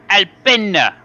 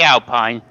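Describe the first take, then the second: First: It is said with an Italian pronunciation. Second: It is said with an English pronunciation. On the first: "because it's an Italian team. It's Alpina" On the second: "I say Alpine. That's not how you pronounce it"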